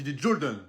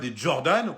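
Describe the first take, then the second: First: Jordan is said with an American accent. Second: Jordan is said with a French pronunciation. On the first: The speaker calls it right. "Il faut dire l'accent américain un petit peu" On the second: The speaker calls it wrong. "on dit pas des Jordan"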